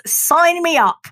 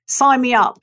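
First: Higher and slow, eager sign-up; drawn-out, thrilled yes. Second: Said in the usual way. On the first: Retold or imitated. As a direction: grab the offer with delight.

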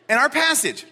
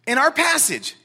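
Both takes have the same delivery.

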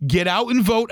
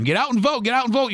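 First: Said in the usual way. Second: Higher, sing-song parroting of a slogan; mock slogan. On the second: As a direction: parrot what everyone keeps saying. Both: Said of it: "People say that all the time".

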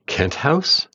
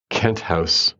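First: "Kent House?" asked with pitch rising high on "House"; wondering "Kent House?", lifting up on "House"; a baffled "Kent House?" that climbs at the end; puzzled question. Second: Said in the usual way. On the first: A narrator's reading. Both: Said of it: "I asked my neighbor".

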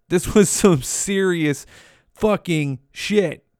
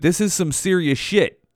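First: Slow, weighty delivery with a pause before "fucking"; slow emphasis. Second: Said in the usual way. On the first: Real, not acted. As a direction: drag out "serious fucking shit", word by word. Repeats it slowly for emphasis.

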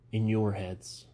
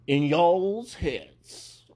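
First: Said in the usual way. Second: High, loud and very slow y'all's, mock Southern; exaggerated Southern drawl. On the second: Shown as a demonstration. Correcting his own slang in a hammed-up Southern drawl. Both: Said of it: "I don't like y'alls".

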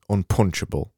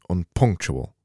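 First: Unpunchable said as un-PUNCH-able with a ch sound; pronouncing unpunchable. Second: Unpunctual said un-PUNK-choo-al with a clear k; pronouncing unpunctual. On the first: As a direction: say unpunchable with a clear ch, no k. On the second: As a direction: give unpunctual its k and the u sound. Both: Shown as a demonstration. Host contrasting the two words for a listener, careful pronunciation. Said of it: "When I say unpunctual".

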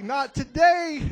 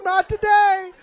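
First: Slow, loud, firm refusal; defiant warning, measured. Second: Much higher, louder snapping refusal; hammed-up fierce warning; fierce defiance. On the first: Retold or imitated. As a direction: shut it down flatly and loud. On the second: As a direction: hurl it at them sharply. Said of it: "I'm talking to you too".

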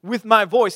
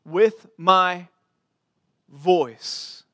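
First: "my" punched higher and louder in "With my voice."; emphatic repeat. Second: "With my" held long, then a pause before "voice."; drawn-out phrase. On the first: Preacher stresses David's phrase to the church, punching "my". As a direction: hit "my" hard in "With my voice.". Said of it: "it's put in the place of emphasis". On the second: Preacher slowly reads the phrase to the church, drawn out. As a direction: lean on "my" and let "voice." fall after a beat. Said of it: "It's this". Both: Shown as a demonstration.

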